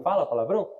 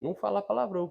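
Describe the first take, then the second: First: "Fala palavrão?" asked with a rising tune on "palavrão"; rhetorical question. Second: "Não fala palavrão." with a settled falling tune, stressing "palavrão"; firm answer. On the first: Pastor quizzing the church about swearing, rising rhetorical question. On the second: Pastor answering his own question to the church, firm falling statement. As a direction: close "Não fala palavrão." down as a final verdict. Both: Shown as a demonstration. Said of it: "Quem tem Jesus não fala palavrão".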